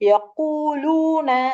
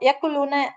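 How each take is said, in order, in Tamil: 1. முதல் மெய்யெழுத்துக்குப் பிறகு வரும் உயிர் நெடில் ஆகும். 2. முதல் மெய்யெழுத்துக்குப் பிறகு வரும் உயிர் குறில் ஆகும். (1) "ரெண்டு ஹரக்கத் அளவுக்கு நீட்டி" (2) "அப்படி சொல்லாம"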